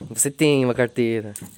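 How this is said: It is said in a probing, insinuating tone. The speaker is hinting at something unsaid. "Sabe que eu tô indagando, dando a entender"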